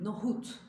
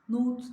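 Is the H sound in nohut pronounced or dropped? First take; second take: pronounced; dropped. First: The H sound is clearly pronounced. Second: The H sound is dropped. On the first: The speaker calls it right. "Oradaki H'yi de çıkarıyoruz" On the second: The speaker calls it wrong. "Nohut değil"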